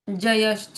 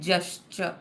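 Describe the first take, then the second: First: A full vowel separates the j from the y. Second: The j runs straight into the y. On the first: The speaker calls it wrong. "जयश्च नहीं" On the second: The speaker calls it right. "आधा ज है इसलिए जश्च"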